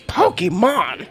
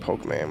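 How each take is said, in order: First: The middle 'e' is clearly sounded. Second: The middle 'e' is left silent. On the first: The speaker calls it right. "You're saying it wrong! It's Pokemon! ... the fancy E" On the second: The speaker calls it wrong. "I used to say Pokemon when I was young. Just as ignorant as can be"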